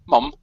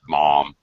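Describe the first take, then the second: First: It is said with a British vowel sound. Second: It is said with an American ah vowel. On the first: "Mum with a U is common for British speakers, and they pronounce it mum" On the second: "for Americans it would be mom, and it would definitely have the ah sound of the O"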